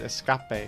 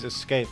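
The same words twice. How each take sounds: First: The word is pronounced in an odd, distorted way. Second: The word is pronounced in the ordinary way. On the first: A character misreads the word for comic effect. "and then she says escape" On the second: This is how the word is written. "It says escape"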